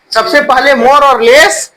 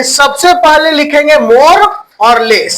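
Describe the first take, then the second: First: "more" and "less" repeated slowly for writing; slow repeat for dictation. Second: Said in the usual way. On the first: Shown as a demonstration. Teacher repeats slowly so students can write it down. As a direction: say it again slowly so they can copy.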